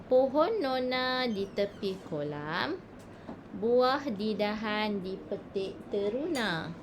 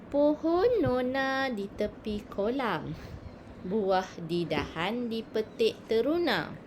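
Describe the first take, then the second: Both takes have the same delivery.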